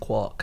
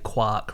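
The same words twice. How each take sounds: First: The vowel does not rhyme with Mark. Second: The vowel rhymes with Mark. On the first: This is the form the word's coiner intended. "this is what he wanted, quark pronunciation" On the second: This is the form most physicists use. "seventy-five percent of physicists say quark"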